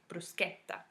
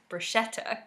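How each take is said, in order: First: The ch is said as a hard k sound. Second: The ch is said as a soft sh sound. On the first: The speaker calls it right. "C H is pronounced as a hard K sound" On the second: The speaker calls it wrong. "in English, we often pronounce it as"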